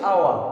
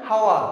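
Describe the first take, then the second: First: The word begins with a vowel sound. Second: The word begins with an h sound. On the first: The speaker calls it right. "আমরা বলছি আওয়া" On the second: The speaker calls it wrong. "আমরা এইচটাকে যদি উচ্চারণ করতাম তখন আমরা বললাম না হাওয়া"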